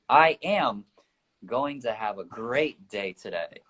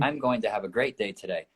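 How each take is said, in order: First: The stress is on the word am. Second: The stress is on the word day.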